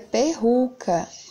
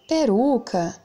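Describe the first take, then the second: First: The middle r is a strong, rough sound. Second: The middle r is a weak tap. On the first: The speaker calls it wrong. "Se tivesse forte, seria perruca" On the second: The speaker calls it right. "o som do R tá fraco"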